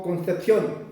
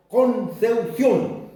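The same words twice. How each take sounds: First: Said in the usual way. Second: Concepción slowly, p turned to u: "Konseusión"; Concepción drawn out with an "eu" for "ep"; Mapuche-style pronunciation. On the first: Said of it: "Tampoco decimos Concepción". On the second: Shown as a demonstration. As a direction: say "Concepción" as con-seu-SIÓN, syllable by syllable. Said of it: "decimos Concepción".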